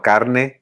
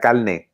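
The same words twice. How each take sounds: First: It is said with an R sound before n. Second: It is said with an L sound before n. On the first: "instead of saying you know carne" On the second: "they pronounce it as an L"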